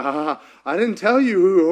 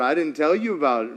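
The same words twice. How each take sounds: First: A touch of giddy disbelief; lightly voiced Mary. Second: Said in the usual way. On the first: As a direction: blurt it out as an overwhelmed Mary. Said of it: "Mary's like".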